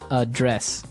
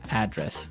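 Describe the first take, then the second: First: The stress is on the second syllable. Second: The stress is on the first syllable. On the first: To deal with a problem. "the verb address has the stress on the second syllable" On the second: The place where you live. "And there the stress is on the first syllable"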